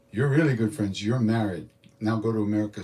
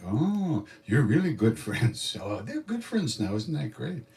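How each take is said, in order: First: Louder, level-pitched pronouncement; imitating a guru marrying off a couple on the spot; abrupt decree. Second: Drawn-out, high swooping "oh" of delight; playful mock-delighted cooing; gushing guru. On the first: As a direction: hand down the verdict with a punch. Guru abruptly declares them married. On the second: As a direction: gush slowly over the happy pair. Guru gushing over the couple.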